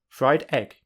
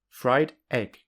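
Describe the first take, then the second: First: A short gap separates the two words. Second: A short gap separates the two words.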